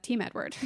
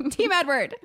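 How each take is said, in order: First: Said in the usual way. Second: Higher, louder cheer of Team Edward; mock fan cheer for "Team Edward". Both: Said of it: "And I said".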